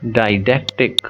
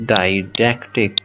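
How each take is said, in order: First: Said in the usual way. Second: "Didactic" said slowly, each syllable clear, falling at the end; slow emphatic term. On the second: Shown as a demonstration. Teacher repeating the new term for students, slow and clear. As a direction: linger on "Didactic" so the class takes it in. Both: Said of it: "because didactic mean".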